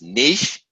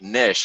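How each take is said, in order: First: The word rhymes with sheesh. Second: The word rhymes with fish. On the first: "the first one is niche, like sheesh" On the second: "the other way to pronounce it is like niche, like a fish"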